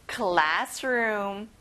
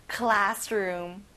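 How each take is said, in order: First: "classroom" with class punched; stress on CLASS. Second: "classroom" with class stressed and a rising end. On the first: Teacher models "classroom" with stress on class. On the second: Teacher repeats "classroom" with class stressed. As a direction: hit "class", let "room" rise. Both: Shown as a demonstration. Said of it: "class에 강세를 넣어보면 좋아요".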